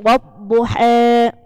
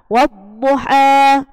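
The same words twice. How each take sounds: First: The final vowel is tilted toward 'e'. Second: The final vowel is a plain open 'a'. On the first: This follows another reader's tradition. "bacanya miring, taklil namanya" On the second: This is the common reading. "kita baca wadduha"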